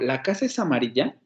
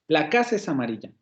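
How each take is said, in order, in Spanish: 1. Pregunta, con el mayor peso al final. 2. Exclamación, con el mayor peso al inicio. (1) "hago una pregunta y digo ... al final de la frase se vaya el mayor peso fónico" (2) "en términos exclamativos, se darán cuenta que el mayor peso fónico cae al principio de la frase"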